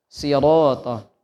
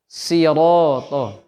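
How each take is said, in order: No difference in how they are said.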